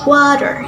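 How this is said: It is spoken with an American accent. "In American accent"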